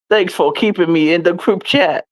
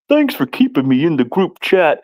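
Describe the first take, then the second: First: It is read in the speaker's normal voice. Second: It is read in a put-on dumb-guy voice.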